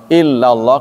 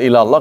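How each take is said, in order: First: The l sound is doubled and held long. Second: The l sound is short and not doubled. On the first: It means except God. "kalau illallah kecuali" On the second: It means to God. "Kalau ilallah kepada"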